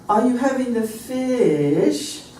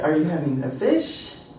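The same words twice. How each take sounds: First: It is said with a British melody. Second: It is said with an American melody. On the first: "it was more like this. That was the melody at the end of that" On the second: "Our melody would be either"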